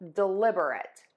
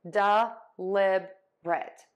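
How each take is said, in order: First: The word is said with four syllables. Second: The word is said with three syllables. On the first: "But you can say four syllables" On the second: "I actually say three syllables"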